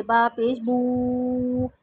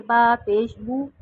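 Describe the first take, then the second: First: बू dragged out long and slow, the wrong way; wrongly stretched vowel. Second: बू short and quick with a pure rounded Arabic u. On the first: Teacher showing the wrong, stretched बू to students. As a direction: stretch बू far too long as a mistake. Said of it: "खींच के नहीं पढ़ते, जैसे". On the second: Teacher showing the correct Arabic बू to students. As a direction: say बू fast with lips fully rounded. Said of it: "जल्दी से और मारूफ यानी अरबी के अंदाज में". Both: Shown as a demonstration.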